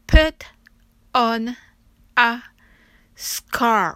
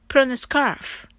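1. このフレーズはゆっくり丁寧に言われています。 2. このフレーズは速く滑らかに言われています。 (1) "それではゆっくり発音してみましょう。" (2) "次に早く言ってみましょう。"

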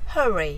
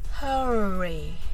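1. この単語は速く言う。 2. この単語はゆっくり言う。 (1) "次に早く" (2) "はじめはゆっくりです"

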